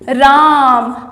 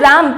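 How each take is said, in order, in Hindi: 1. स्वर लंबा खींचकर रखा जाता है। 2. स्वर छोटा और जल्दी से बोला जाता है। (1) "इसके उच्चारण में समय लगा है ना" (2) "राम के उच्चारण में अभी समय नहीं लगा है"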